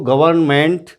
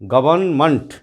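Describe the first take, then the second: First: The final syllable is a full 'ment'. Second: The final syllable is a reduced 'munt'. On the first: The speaker calls it wrong. "इस तरह नहीं करना चाहिए हमको" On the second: The speaker calls it right. "सही उच्चारण होगा वो इस तरीके से होगा"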